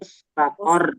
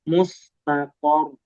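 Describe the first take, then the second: First: The r is said thin with much trilling. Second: The r is said thick and heavy. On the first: The speaker calls it wrong. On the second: The speaker calls it right.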